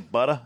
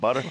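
First: It is said in the local regional accent. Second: It is said in a standard accent. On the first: This is how the locals say it. "they say butter" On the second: This is how most people say it. "instead of butter"

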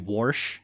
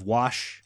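First: The word has an r sound before the sh. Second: The word has no r sound before the sh. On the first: The speaker calls it wrong. "no one should ever say warsh" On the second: The speaker calls it right. "instead of wash"

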